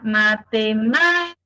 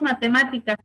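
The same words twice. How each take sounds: First: It is drawn out like a scrap dealer's call. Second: It is said plainly, without drawing out syllables.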